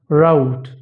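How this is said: It is said in an American accent. "In American accent"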